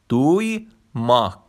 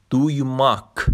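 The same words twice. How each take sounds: First: دویماک drawn out slowly, falling; slow Turkish word. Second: Said in the usual way. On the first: Shown as a demonstration. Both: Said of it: "دویماک به معنای شنیدن".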